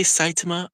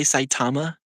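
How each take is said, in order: First: Saitama as "SIGH-tuh-muh"; unstressed middle syllable. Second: Saitama as "sigh-TAH-ma"; long middle syllable. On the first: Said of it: "some people say". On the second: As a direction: Saitama with a full, open "TAH". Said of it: "others say Saitama". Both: Shown as a demonstration.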